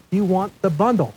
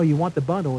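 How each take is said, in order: First: Mildly raised, emphatic retold insistence; imitating all caps. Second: Said in the usual way. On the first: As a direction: push each word like a text in capitals. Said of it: "he texted me in all caps". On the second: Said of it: "And he says".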